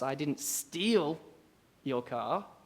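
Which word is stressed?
steal. The stress is on the word steal.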